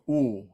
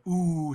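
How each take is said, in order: First: "oo" opened toward "oh"; Southern "oo" sound. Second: "oo" as a long, tight close vowel; Northern "oo" sound. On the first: Teacher showing southern dialect vowel, "oo" lowered toward O. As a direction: drop the jaw on "oo", nearly an O. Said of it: "it's almost like a O sound". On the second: Teacher contrasting northern dialect vowel, "oo" long and close. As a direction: hold "oo" out, lips rounded. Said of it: "in the north, you have a lot of oo sounds". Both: Shown as a demonstration.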